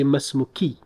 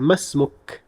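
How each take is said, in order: First: The word ends with an added final i vowel. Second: The word ends on the k without a vowel. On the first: The speaker calls it wrong. "Nor would you say masmuki" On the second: The speaker calls it right. "You will simply say masmuk"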